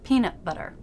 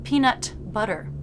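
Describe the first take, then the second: First: The T stops the air without release. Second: The T is fully released. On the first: The speaker calls it right. "but peanut butter" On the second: The speaker calls it wrong. "with a released T"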